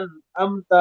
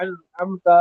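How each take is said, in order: First: انعمت with glottal stops, no throat ع; both as hamza. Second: انعمت with a squeezed ع in both syllables; both as ain. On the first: Teacher showing a mistake, hamza twice in انعمت. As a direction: make both sounds in انعمت a light hamza. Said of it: "دونوں کے اندر حمزہ کی آواز آ جاتی ہے". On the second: Teacher showing a mistake, ع twice in انعمت. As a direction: tighten the throat on both starts in انعمت. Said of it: "دونوں کے اندر عین کی آواز آ جاتی ہے". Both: Shown as a demonstration.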